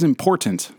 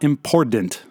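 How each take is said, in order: First: The middle consonant is a clear T sound. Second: The middle consonant sounds like a D. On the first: The speaker calls it right. "It is T" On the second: The speaker calls it wrong. "There's not a hidden D in there"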